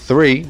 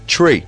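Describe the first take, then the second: First: It begins with a TH sound. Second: It begins with a T sound.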